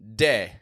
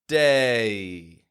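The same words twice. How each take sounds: First: The vowel is short without a clear glide. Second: The vowel glides fully from a to ee. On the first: The speaker calls it wrong. "Not just day" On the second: The speaker calls it right. "Getting a and ye"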